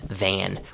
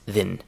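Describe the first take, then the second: First: The vowel is full and clearly pronounced. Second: The vowel is reduced and very short.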